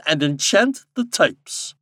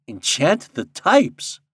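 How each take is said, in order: First: Slow, raised, emphatic instruction ending in a fall; commanding king. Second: Slow, raised question with rising end; wondering. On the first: King instructing Popopo, commanding. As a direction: pronounce the order slowly and grandly. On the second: Popopo echoing the king's order, in wonder. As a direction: echo it slowly in puzzled wonder. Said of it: "echoed Popopo in wonder". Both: A narrator's reading.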